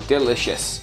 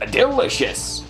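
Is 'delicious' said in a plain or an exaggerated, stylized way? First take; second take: plain; exaggerated. First: It is said in a plain, ordinary way. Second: It is said with an exaggerated, stylized inflection.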